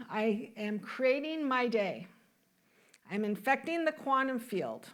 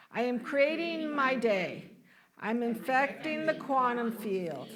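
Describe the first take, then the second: First: Said in the usual way. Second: Deliberate affirmation for others to repeat; leading group recitation. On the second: Shown as a demonstration. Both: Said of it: "Why don't you say this with me".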